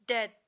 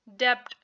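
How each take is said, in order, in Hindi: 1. t से पहले b की कोई ध्वनि सुनाई नहीं देती। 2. t से पहले b की ध्वनि सुनाई देती है। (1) "बल्कि बी साइलेंट करेंगे" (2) "अब हम इसको ऐसे नहीं पढ़ेंगे"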